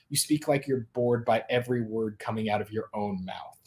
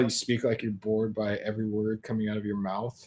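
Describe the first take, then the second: First: It is said in a normal, lively voice. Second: It is a slow, low, bored drawl.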